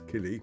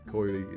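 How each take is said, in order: First: The first vowel sounds like 'ee'. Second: The first vowel sounds like 'oy'. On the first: The speaker calls it right. "Coily is Kili" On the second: The speaker calls it wrong. "O I is pronounced I"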